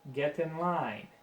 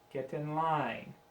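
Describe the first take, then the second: No difference in how they are said.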